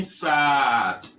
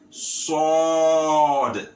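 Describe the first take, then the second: First: It has a light, plain s and open a. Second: It has a heavy s and dark, o-like vowel. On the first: The speaker calls it wrong. "you may pronounce it as sad, as in the English" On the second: The speaker calls it right. "you make it sword"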